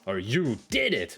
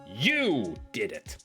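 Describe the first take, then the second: First: The stress is on "did". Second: The stress is on "you".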